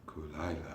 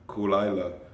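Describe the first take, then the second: First: The name is pronounced with a softer sound. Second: The name is pronounced with a harder sound. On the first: The speaker calls it right. "the way he said it was Kulila" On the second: The speaker calls it wrong. "I'm saying it Kuila, Kulila"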